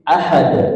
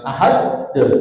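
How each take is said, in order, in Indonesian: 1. d terakhir memantul tanpa vokal tambahan. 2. Setelah d terakhir ada vokal tambahan. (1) "tapi ahad nah" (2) "jangan ahad de"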